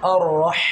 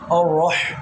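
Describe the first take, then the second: First: The vowels are light with a neutral mouth. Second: The vowels are heavy and rounded. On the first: The speaker calls it right. "মুখ স্বাভাবিক" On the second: The speaker calls it wrong. "এরকম না"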